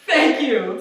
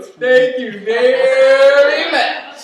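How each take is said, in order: First: Said in the usual way. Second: Slow, louder crooned thank you very much; sung thanks. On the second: Real, not acted. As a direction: croon it out like a lounge singer.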